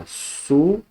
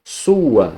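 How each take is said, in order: First: "sua" split as su-a; "sua" in two separate syllables. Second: Said in the usual way. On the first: Shown as a demonstration. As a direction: pause between U and A in "sua". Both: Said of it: "uma vogal pra um lado".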